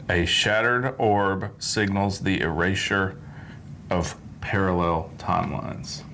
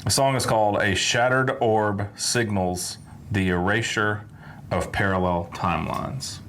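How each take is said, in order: First: Slow, deliberate title read; slow careful reading. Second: Said in the usual way. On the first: Shown as a demonstration. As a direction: spell out each word slowly. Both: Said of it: "let me make sure I get this right".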